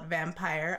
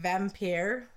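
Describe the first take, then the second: First: It is said like the ordinary word 'vampire'. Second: It is said the way its spelling looks. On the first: This is how some other people say it. "or as some people call it" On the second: This is the speaker's preferred way of saying it. "I like to call it Vampyr because that's how it looks like it is supposed to be said"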